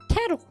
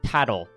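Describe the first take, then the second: First: It is said in a put-on girl voice. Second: It is said in his normal voice.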